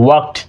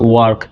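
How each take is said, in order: First: The word ends with a final t sound. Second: The word ends without a final t sound. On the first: The speaker calls it right. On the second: The speaker calls it wrong.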